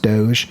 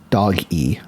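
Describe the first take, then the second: First: The name is said as one syllable. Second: The name is said as two syllables. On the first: This is how people say it now. "it's pronounced Doge" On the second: This is how it was first meant. "their original intent was Dog E"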